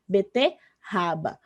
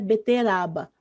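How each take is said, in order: First: The middle r is a strong, harsh sound. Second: The middle r is a weak, light tap. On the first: The speaker calls it right. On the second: The speaker calls it wrong.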